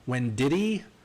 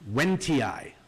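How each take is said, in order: First: The name has an extra 'did' syllable. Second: The name is said without an extra syllable. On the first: The speaker calls it wrong. "I've seen people say Wendiddy" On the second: The speaker calls it right. "So here goes"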